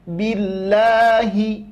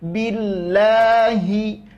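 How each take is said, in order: The two takes are said the same way.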